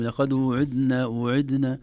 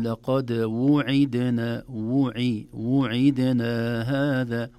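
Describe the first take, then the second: First: وعدنا rushed as idna, vowels swallowed; slurred. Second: وعدنا fully voiced wu-ʕi-da-na, slowly; slow correct recitation; careful vowels. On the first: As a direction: run وعدنا together quickly as idna. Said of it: "قد تخرج كلمة". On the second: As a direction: give every vowel in وعدنا its full value. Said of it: "ولكن". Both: Shown as a demonstration.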